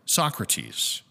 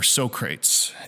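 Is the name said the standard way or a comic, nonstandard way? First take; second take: standard; comic. First: The name is said the standard way. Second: The name is said a comic, nonstandard way.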